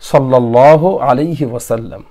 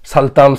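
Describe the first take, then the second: First: Every syllable of the phrase is said in full. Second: The phrase is slurred into a short clipped form. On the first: The speaker calls it right. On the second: The speaker calls it wrong.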